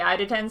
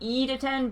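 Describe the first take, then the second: First: The first vowel sounds like "eye". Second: The first vowel sounds like "ee". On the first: The speaker calls it wrong. "but I definitely say I to ten sometimes" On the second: The speaker calls it right. "It should be E to ten"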